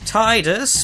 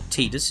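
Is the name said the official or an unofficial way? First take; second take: unofficial; official. First: The name is given an unofficial pronunciation. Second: The name is given its official pronunciation. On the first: This is the speaker's own preferred way. "when have I ever been official? So Tidus" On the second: This is how the name is meant to be said. "Tidus is the official pronunciation"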